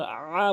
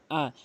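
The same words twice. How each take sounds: First: আ pressed hard, the mistake; আ forced with too much push; a strained pressed আ; wrong hamza. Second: আ clean from the start of the throat, not pressed; আ with a light glottal start; আ with a quick catch at the throat; correct hamza. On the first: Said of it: "আ বলতে পারবেন না". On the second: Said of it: "আ বলতে হবে". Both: Shown as a demonstration.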